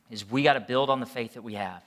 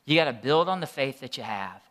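First: Gotta leaned on, falling tune; stress on gotta. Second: Gotta weighted, falling tune, turned to you; stress on gotta again. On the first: Pastor urging the church, gotta stressed. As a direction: press gotta to make it stick. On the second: Preacher repeating the point at them, gotta stressed. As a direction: drive gotta home to each listener. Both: Shown as a demonstration. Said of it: "this is so important".

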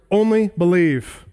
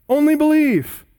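First: Said in the usual way. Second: "Only" hit much higher and louder, then "believe" falls; "Only" leaps high and strong before a falling "believe"; stress on ONLY. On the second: Shown as a demonstration. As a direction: lean hard on "Only". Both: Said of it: "the word "only" gets special emphasis".

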